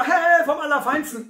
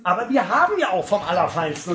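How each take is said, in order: First: Baffled "Hä?" of confused people; puzzled. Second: Said in the usual way. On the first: Retold or imitated. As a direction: sound puzzled, as if it makes no sense. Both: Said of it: "dann sagen die Leute immer".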